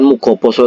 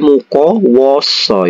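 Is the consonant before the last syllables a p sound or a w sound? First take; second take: p sound; w sound. First: A p sound comes before the ending. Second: A w sound comes before the ending. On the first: The speaker calls it wrong. "bukan mukoposo" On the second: The speaker calls it right. "tapi mukowoso"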